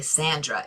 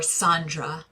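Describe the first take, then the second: First: "Sandra" with a New York short A; New York accent. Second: "Sandra" with an ah, as in SAHN-druh; broad-A name. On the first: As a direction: say "Sandra" as SAN-druh, New York style. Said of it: "in my New York accent". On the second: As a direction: open the first vowel of "Sandra" to ah. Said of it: "but she's really Sandra in my". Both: Shown as a demonstration.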